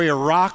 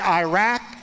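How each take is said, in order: First: Iraq is said the northern way. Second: Iraq is said the Texas way.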